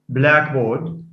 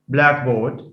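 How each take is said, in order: The two takes are said the same way.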